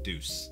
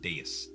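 First: The word is said with one syllable. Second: The word is said with two syllables. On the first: The speaker calls it wrong. "instead of Deuce" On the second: The speaker calls it right. "I think you pronounce it Deus"

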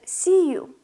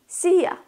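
First: The second word is said in full as 'you'. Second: The second word is reduced to a relaxed 'ya'.

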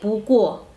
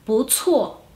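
First: The second syllable lacks a breathy ts sound. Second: The second syllable starts with a breathy ts sound. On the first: The speaker calls it wrong. "no se lee pu cuo" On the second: The speaker calls it right. "Exhala el aire, ts"

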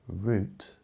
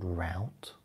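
First: The word is said the British way. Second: The word is said the American way.

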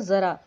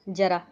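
First: The word begins with a 'z' sound. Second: The word begins with a 'j' sound. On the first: It means old age. "Urdu में अगर नुक्ता लग गई तो उसको बोलेंगे ज़रा" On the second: It means a little. "Hindi में ... तो हम उसको बोलते हैं थोड़ा जरा"

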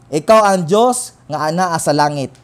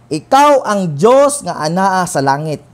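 Both takes have the same delivery.

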